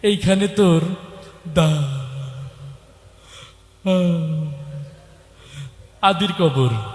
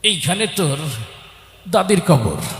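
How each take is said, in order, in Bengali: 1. কথাগুলো তোতলামি আর থেমে থেমে বেরোচ্ছে। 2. কথাগুলো তোতলামি ছাড়াই সাবলীলভাবে বেরোচ্ছে।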